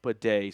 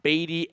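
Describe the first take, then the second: First: The name sounds like the word 'bidet'. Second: The name does not sound like 'bidet'. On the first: This is how the player now says his name. The speaker calls it right. "it's actually pronounced Bidet. So we've got a Japanese toilet" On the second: This is how the name used to be said. The speaker calls it wrong. "it's not Beatty anymore. It was at one point"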